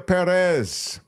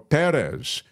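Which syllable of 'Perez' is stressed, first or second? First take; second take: second; first. First: The stress is on the second syllable. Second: The stress is on the first syllable.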